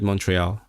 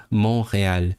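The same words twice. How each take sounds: First: Said in the usual way. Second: "Montreal" with silent T, throaty R; French pronunciation. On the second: Shown as a demonstration. Streamer correcting the city name to its French pronunciation.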